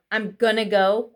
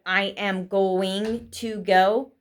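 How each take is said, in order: First: "gonna" run together as gun-nuh; casual contraction. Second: "going to" spelled out fully, ng sounded; full careful form. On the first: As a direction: crush going to into "gonna", g ending gone. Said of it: "instead of I am going to go". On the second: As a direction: say "I am going to go" slowly, every word separate. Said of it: "instead of". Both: Shown as a demonstration.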